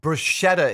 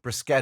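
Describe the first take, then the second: First: It is pronounced the Anglicized English way. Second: It is pronounced the Italian way. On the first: The speaker calls it wrong. "bruschetta is the way people mispronounce it" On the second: The speaker calls it right. "Bruschetta is the correct pronunciation"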